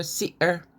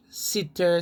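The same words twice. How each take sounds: First: "sitter" with no T, "si'er"; glottal stop. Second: Said in the usual way. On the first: Shown as a demonstration. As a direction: catch the throat in place of TT in "sitter". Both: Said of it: "they don't sound T".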